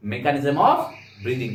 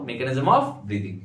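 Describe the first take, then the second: First: Said in the usual way. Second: Slow, spelled-out repeat. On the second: Shown as a demonstration. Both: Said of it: "কি বললাম বলো?".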